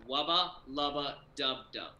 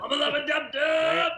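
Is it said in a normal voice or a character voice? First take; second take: normal voice; character voice. First: It is said in his normal voice. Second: It is said in a put-on Rick voice.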